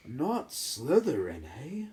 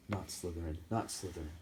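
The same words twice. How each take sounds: First: "Not Slytherin" drawn out slowly, higher, eh rising; hat questions Harry's choice; small hat voice. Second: "Not Slytherin" said much softer, under the breath; Harry begs inside his head; thinking pleadingly. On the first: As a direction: echo his plea back, amused and slow. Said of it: "said the small voice". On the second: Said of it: "and thought". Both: Acted.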